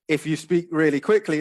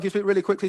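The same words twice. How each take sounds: First: It is spoken at a calm, normal pace. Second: It is spoken very quickly and rushed.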